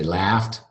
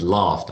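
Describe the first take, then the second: First: It has a short, front 'a' vowel. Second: It has a long, back 'ah' vowel. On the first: "I didn't say laughed" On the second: "British English, I said laughed"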